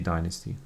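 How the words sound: It is said the American way. "the Americans say"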